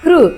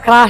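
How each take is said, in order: First: It is said softly with a light 'kri' sound. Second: It is said with a full 'kraa' vowel. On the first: The speaker calls it right. "ಕೃಷ್ಣ ಅಂತ ಹೇಳ್ತೀವಲ್ವಾ, ಆ ಅದೇ ಕೃ ಇಲ್ಲಿರೋದು" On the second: The speaker calls it wrong. "ಕೆಲವರು ಕ್ರಾ ಕ್ರಾ ಹೇಳ್ತಾರೆ, ಕ್ರಾ ಅಲ್ಲ"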